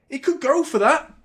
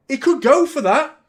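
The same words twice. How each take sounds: First: Alarmed. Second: High, loud rising alarm. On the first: Repeat of the line above. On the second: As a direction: sound worried he could be sent off. Fearing a red card. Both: Real, not acted.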